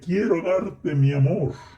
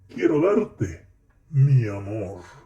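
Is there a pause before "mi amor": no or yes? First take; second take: no; yes. First: It runs straight through without a pause. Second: A short pause comes before "mi amor". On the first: Love itself is being offered to the person. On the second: The person being spoken to is called "my love".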